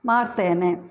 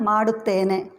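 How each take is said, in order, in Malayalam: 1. ഡു എന്ന അക്ഷരം ചുരുക്കിയാണ് പറയുന്നത്. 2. ഡു എന്ന അക്ഷരം പൂർണ്ണമായി ഉച്ചരിക്കുന്നു.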